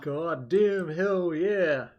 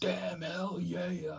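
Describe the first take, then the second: First: Slow, drawn-out, high hype yell; American impression. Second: American impression. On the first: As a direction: stretch out a cocky American cheer. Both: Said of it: "your best American impersonation".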